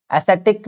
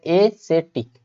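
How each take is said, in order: First: एसेटिक run together with a short "ess" opening; wrong pronunciation. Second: एसेटिक with a long "ay", then set-ik; correct pronunciation. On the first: Teacher warns against this reading, एसेटिक mispronounced with short first vowel. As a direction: say एसेटिक as quick "ass-et-ik". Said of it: "एसेटिक नहीं पढ़ते". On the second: Teacher corrects the reading, एसेटिक with long separated first vowel. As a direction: say एसेटिक as "ay - se - tik" in parts. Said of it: "इसको बोलते एसेटिक". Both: Shown as a demonstration.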